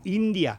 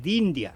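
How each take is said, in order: First: The word begins with a vowel sound. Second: The word begins with a d sound. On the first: The speaker calls it right. "se dice India" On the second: The speaker calls it wrong. "No se dice Dindia"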